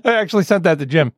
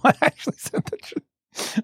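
First: Said in the usual way. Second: Laughing. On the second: Real, not acted. Laughing while insisting it's real.

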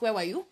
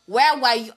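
First: Said in the usual way. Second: Louder accusing demand. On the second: Acted. Repeated accusing question.

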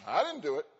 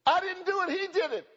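First: Said in the usual way. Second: High, loud, panicky denial; high protest. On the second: Retold or imitated. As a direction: squeal out the excuse like a caught kid. Preacher voiced protesting innocence.

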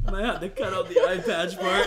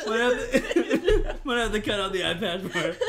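First: Laughing. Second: Slow, words broken by laughter; can barely talk for laughing; laughing hard. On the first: Laughing joke. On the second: Repeated joke, laughing harder. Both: Real, not acted.

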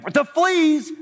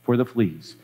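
First: Very high, drawn-out "fleas"; incredulous outburst. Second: Low, calm and untroubled; serene. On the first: Corrie balks at Betsy's thanks, high and incredulous. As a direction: stretch "fleas" slowly in high-pitched disbelief. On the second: Betsy thanks God in prayer, low and serene. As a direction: say "fleas" serenely, pitched low. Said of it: "Betsy went on serenely". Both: Acted.

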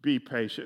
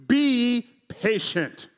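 First: Be patient said low and soft, falling; Be patient dropped into a hushed firm order; quiet command. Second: Be patient punched slow and loud; commanding emphasis. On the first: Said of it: "He is commanding us". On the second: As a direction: drive home be patient as a stern order. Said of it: "looking us in our eyes and saying". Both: Acted.

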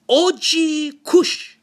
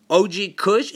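First: Put-on slow, higher accented O G Kush; imitating the dad. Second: Said in the usual way. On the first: Dad repeating the customer's weed pick, slow accented wonder. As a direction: stretch out O G Kush like a puzzled dad. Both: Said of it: "this guy, he like".

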